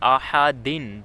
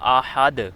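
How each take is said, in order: First: The word ends with an -in sound. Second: The word ends on a bare d sound. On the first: This is the full form without stopping. "दाल पे दो ज़ेर हैं" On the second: This is the form used when stopping. "इसका वक़फ़ होगा आहद"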